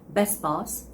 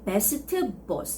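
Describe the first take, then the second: First: The T at the end of best is dropped. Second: The T at the end of best is pronounced. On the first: "You can just say best boss" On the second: "you don't have to actually make the sound"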